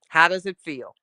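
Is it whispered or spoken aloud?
spoken aloud. It is spoken in a normal voice.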